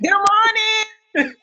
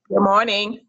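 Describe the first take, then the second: First: It is said with more enthusiasm and energy. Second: It is said flatly, with little energy.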